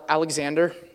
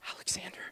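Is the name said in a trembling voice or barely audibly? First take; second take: trembling; barely audible. First: The name is said in a trembling voice. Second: The name is said barely audibly.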